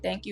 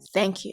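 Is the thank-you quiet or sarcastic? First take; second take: quiet; sarcastic. First: It is said very quietly. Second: It is said in a forced, sarcastic way.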